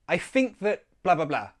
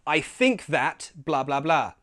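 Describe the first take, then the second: First: That has a schwa and a glottal stop. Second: That has a full vowel and clear t.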